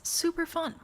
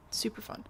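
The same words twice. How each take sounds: First: High sarcastic bright-side quip; mock cheer, pitched high. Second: Flat, quieter deadpan echo. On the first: Reacting to her thyroid, high sarcastic mock cheer. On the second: Acted. Echoing her own joke, quiet flat deadpan. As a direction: drop it flat and dry.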